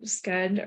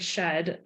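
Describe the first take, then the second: First: The word begins with an 'sk' sound. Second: The word begins with an 'sh' sound. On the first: This is how others pronounce it. "I think they pronounce it sked" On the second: This is how the speaker personally pronounces it. "or I always say shed"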